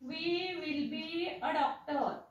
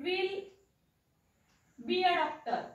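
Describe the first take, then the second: First: We and will are said as two separate words. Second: We will is squeezed into one short syllable. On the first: "अर्थ काय असतो" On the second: "सो याला वाचायचं"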